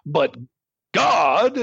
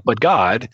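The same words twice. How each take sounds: First: Hammed-up emphasis, God soaring; overdone dramatic But God; overly dramatic. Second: But God with a low, light rising close; secondary intonation. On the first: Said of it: "unless we're doing it overly dramatically". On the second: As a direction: mark the switch to God gently, no big push. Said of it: "secondary intonation, like". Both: Shown as a demonstration.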